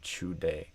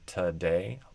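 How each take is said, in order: First: The word begins with a ch sound. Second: The word begins with a plain t sound. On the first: "they often say chu day" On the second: "Instead of two or today"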